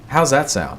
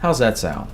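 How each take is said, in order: First: It is said in an upbeat, excited tone. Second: It is said in a calm, reasonable tone.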